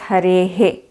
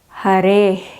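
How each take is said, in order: First: The final h is followed by an echo e. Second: The final h has no echo vowel. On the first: "South Indians do it as" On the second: "This is"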